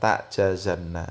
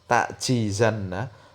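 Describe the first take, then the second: First: The vowel after the j is a. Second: The vowel after the j is i. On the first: "boleh dibaca fathah" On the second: "boleh dikasrah jimnya"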